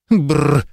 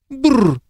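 First: A shivering lip-trill of disgust; disgusted shudder. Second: Higher, sharper shivering brrr; high disgusted shudder. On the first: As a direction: shudder out a brrr. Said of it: "содрогнулся герцог". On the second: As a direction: shudder again, pitched high. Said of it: "повторно содрогнулся герцог". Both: A narrator's reading.

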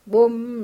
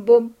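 First: A louder boom of a big drum; mock drum boom. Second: Much louder boom rising at the end; big drum crash. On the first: Vautrin mimicking the fairground band, mock drum boom. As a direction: thump it out like a bass drum. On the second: Vautrin ending his mock band with a big, loud boom. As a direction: slam the final drum beat. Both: A narrator's reading.

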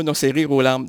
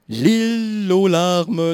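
First: Said in the usual way. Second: "Lille aux larmes" drawn out slowly, Lille in place of rire; wrong word on purpose. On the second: Shown as a demonstration. Host punning on rire, slow "Lille aux larmes".

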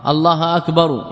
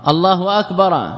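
First: أكبر said as akbaru, ending in -u; the correct akbaru. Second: أكبر said as akbara, with a wrong a ending; wrong case ending. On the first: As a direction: finish أكبر with a clear u. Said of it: "يخطئ". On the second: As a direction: end أكبر on -a, not -u. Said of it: "يخطئ في الإعراب". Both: Shown as a demonstration.

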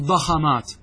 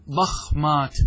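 First: ضخمات as "da-kha-maat", a after the kh; forbidden echoed vowel. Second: ضخمات as "dakh-maat", no vowel after kh; vowelless kha. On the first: Teacher shows students what isn't allowed, ضخمات as "da-kha-maat". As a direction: say ضخمات wrongly with a fatha on the kha. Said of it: "لا يجوز أن أقول". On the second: Teacher shows students the unchanged plural, ضخمات as "dakh-maat". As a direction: close the kh straight onto m in ضخمات. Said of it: "الخاء ساكنة". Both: Shown as a demonstration.

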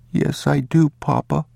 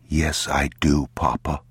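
First: Put-on high, obedient child's voice; small boy answering his father; young boy. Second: Put-on feed the child his answer evenly; restrained, measured prompting; father prompting. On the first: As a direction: repeat it high, like a little boy. Boy repeats what father said. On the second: Father models the boy's answer.

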